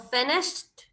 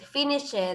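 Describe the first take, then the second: First: The ending is a short t sound. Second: The ending adds an extra 'id' syllable. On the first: The speaker calls it right. "here we have a t sound" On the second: The speaker calls it wrong. "we tend to say"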